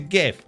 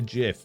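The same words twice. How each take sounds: First: The word begins with a hard G sound. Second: The word begins with a J sound. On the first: The speaker calls it right. "Because it's a G, not a J" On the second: The speaker calls it wrong. "So are all the people that call it a GIF"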